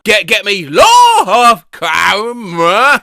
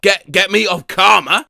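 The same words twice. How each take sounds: First: Loud, drawn-out mock bellow; slow, exaggerated shouted repeat; hammed-up loud drawl. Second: Said in the usual way. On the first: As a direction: stretch LAW out into a slow shout. Exaggerated repeat of the garbled phrase.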